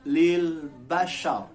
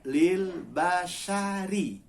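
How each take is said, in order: First: The phrase ends on a thick, vowelless r. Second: The phrase ends with a short 'ri' syllable. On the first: The reader stops at this word. "Tapi kalau berhenti lil basyar. Ro-nya menjadi mati atau menjadi sukun" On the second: The reading continues without a stop. "Tertulis lil basyari. Kasroh ri"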